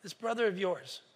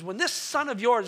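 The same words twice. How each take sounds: First: "brother" softly emphasized, lower and quieter; gentle stress on brother. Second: "this" stretched and leaned on in contempt; scornful stress on this. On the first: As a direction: turn the phrase back with love. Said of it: "see how the father turns it". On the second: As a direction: spit out "this son of yours" to disown him. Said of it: "listen how he lang-, the language he used". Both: Acted.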